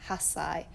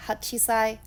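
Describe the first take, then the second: First: Hasai said softer, falling; hasai, short, the settled answer; correct reading. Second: Hachisai, shown as the reading to avoid; wrong reading. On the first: Teacher confirming the right reading, softly. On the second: Teacher contrasting the wrong reading for learners. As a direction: say hachisai as the form not to use. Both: Shown as a demonstration. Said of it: "not hachisai".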